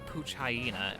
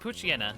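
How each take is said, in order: First: The name ends with a separate word, hyena. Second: The name is said without a separate hyena sound. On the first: The speaker calls it wrong. "or the Pooch Hyena, if you're one of those people" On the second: The speaker calls it right. "it's the Poochyena"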